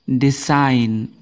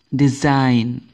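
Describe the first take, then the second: No difference in how they are said.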